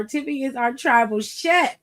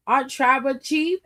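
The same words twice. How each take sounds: First: "chef" said SHEF with a rising tune. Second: "chief" said with a rising asking tune; "chief" with the CH-EE-F vowel, as a question. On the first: Host correcting chief to chef, rising playfully. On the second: Host testing the title chief, rising questioningly. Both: Shown as a demonstration.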